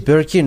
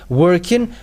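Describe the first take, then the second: First: The word begins with a B sound. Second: The word begins with a W sound. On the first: "they say Birkin" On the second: "when you say working"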